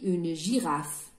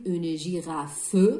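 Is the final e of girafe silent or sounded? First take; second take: silent; sounded. First: The final e of girafe is silent. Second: The final e of girafe is sounded. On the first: The speaker calls it right. "mais on dit une girafe" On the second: The speaker calls it wrong. "on ne va pas dire une girafe"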